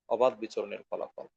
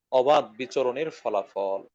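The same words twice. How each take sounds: First: অবাধ বিচরণের ফলাফল repeated much softer and lower; soft echo. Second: অবাধ weighted, phrase slowed right down; slow emphatic stress. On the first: Preacher echoing his conclusion, softer. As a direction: drop the repeat to a hush. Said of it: "preacher repeats conclusion softly". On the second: Preacher naming the cause to listeners, slow stress. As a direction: hammer অবাধ slowly. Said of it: "preacher stresses conclusion". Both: Real, not acted.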